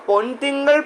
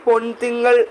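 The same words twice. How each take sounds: The two takes are said the same way.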